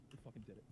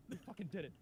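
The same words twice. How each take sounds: First: Much softer, half-whispered We fucking did it; hushed disbelief. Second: Triumphant. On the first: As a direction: say We fucking did it under your breath, stunned. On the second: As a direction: let We fucking did it burst out in victory. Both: Real, not acted.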